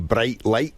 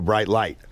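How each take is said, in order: First: It is said with a Scottish accent. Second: It is said with an American accent. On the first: "in Scotland, we say" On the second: "in America, they go"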